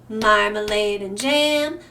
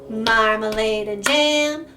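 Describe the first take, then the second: Both takes have the same delivery.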